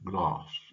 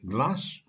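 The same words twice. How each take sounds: First: Glass is said in a southern English accent. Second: Glass is said in a northern English accent. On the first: "the southern glass" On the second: "as a northerner, I pronounce the word glass"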